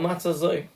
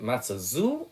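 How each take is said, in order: First: The last word ends with an 'oy' vowel. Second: The last word ends with an 'oo' vowel. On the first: "Is it Matzah zu or Matzah zoi?" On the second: "Is it Matzah zu or Matzah zoi?"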